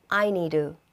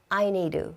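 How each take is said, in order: No difference in how they are said.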